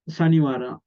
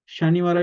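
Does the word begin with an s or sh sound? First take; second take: s; sh. First: The word begins with a plain s sound. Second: The word begins with an sh sound. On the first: "Sanivara also okay" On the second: "Shanivara is okay also"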